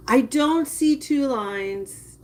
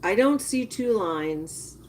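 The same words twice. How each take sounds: First: "see" drawn out and pressed, slow and a bit higher; stress on see. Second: Said in the usual way. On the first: Shown as a demonstration. Repeating it to her viewers, pressing on "see". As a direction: lean slowly on "see".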